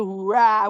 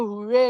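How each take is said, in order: First: The cheer has a German-style pronunciation. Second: The cheer has an English-style pronunciation. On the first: "the Germans, ... They say hurrah" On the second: "they don't say hooray"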